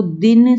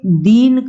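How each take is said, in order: First: Said in the usual way. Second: दीन held on a long ee; stressed long vowel. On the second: Shown as a demonstration. Teacher contrasting two words for pupils, दीन stressed and lengthened. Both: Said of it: "तो अक्षर पे बल दिया गया".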